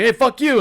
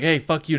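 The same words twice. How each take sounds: First: Higher and louder, yelled back; a retold yell, hammed-up; mock shouted insult. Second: Said in the usual way. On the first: Second character shouts back.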